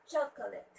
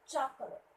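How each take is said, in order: Both takes have the same delivery.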